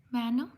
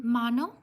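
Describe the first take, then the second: First: Mano as "MAN-oh", questioning rise; silent N, second try. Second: Mano as "MAH-no", questioning rise; silent final N. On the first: Streamer correcting a viewer's name, trying Mano as "MAN-oh". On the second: Streamer correcting a viewer's name, trying Mano as "MAH-no". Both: Real, not acted. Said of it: "N is silent".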